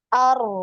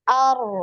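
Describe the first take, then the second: The two takes are said the same way.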